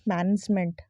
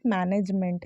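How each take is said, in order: First: The n carries no full 'e' vowel. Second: The n carries a full 'e' vowel. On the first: The speaker calls it right. "इसमें ए की मात्रा नहीं लगेगी" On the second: The speaker calls it wrong. "It's not मैनेजमेंट ... एन में ना ए की मात्रा लगा के हम बोलते हैं"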